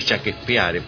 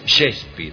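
First: The name is read as spelled, Spanish-style. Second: The name is said with English pronunciation. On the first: "a mí me gusta decirle Shakespeare, porque se escribe así" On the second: "Eso pronunciaba"

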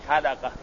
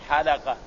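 Both takes have the same delivery.

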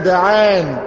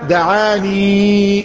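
First: The word ends without a final long 'ee' vowel. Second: The word ends with a final long 'ee' vowel. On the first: The final letter is dropped to ease pronunciation. "زي برضك الياء التانية إذا دعان" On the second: This is the original full form of the word. "أصلها دعاني"

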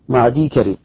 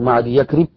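First: The final ya runs straight into karib. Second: An extra 'y' sound comes before karib. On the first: The speaker calls it right. "النطق واحد" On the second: The speaker calls it wrong. "لا تقول مع دي يكرب"

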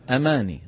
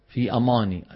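First: The word is said with a light, plain sound. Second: The word is said with a heavy, emphatic sound. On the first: The speaker calls it right. "العرب ما بيقولوا أماني، شو بيقولوا؟" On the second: The speaker calls it wrong. "التفخيم"

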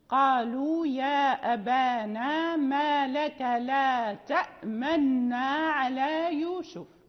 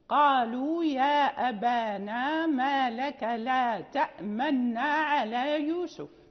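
The two takes are said the same way.

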